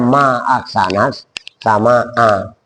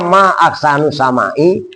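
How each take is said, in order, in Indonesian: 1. Kedua kata itu berakhir dengan vokal a. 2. Kata-kata itu berakhir dengan vokal u dan i. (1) "padahal sehat ta'ajub harusnya" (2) "putrinya ngomongnya"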